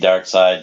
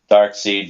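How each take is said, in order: First: The second syllable has an 'eye' vowel. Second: The second syllable has a long 'ee' vowel. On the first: "some pronounce it dark side" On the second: "some people pronounce it dark seed"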